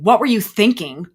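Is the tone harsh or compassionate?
harsh. It is asked in a harsh, accusing tone.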